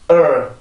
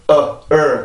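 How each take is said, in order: First: The vowel is said as one merged sound. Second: The vowel is split into two separate sounds. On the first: The speaker calls it right. "한 번에 을, 을 이렇게 발음을 해요" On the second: The speaker calls it wrong. "이렇게 발음을 하지 않고"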